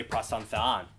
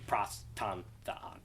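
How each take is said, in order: First: "pros ton theon" as one plain phrase; run together evenly. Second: "pros, ton, theon" softly separated; word by word. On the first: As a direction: say "pros ton theon" without separating the words. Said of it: "you could just say". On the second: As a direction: say "pros ton theon" with gaps, more quietly. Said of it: "some people will just do". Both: Shown as a demonstration.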